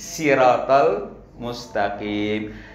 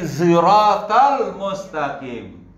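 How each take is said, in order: First: The first word begins with an s sound. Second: The first word begins with a z sound. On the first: "dia pakai huruf sin" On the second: "bukan si, bukan si, tapi ziratal mustaqim"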